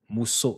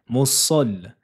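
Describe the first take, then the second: First: The vowel after the S sounds like O. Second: The vowel after the S sounds like A. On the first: The speaker calls it wrong. "Attention à ne pas dire ... avec un O" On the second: The speaker calls it right. "avec une fatha"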